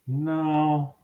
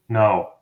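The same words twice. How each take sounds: First: It is a hesitant, not-right-now refusal. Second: It is a firm, definite refusal.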